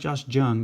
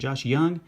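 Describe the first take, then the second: First: The surname starts with a J sound. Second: The surname starts with a Y sound. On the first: The speaker calls it wrong. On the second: The speaker calls it right.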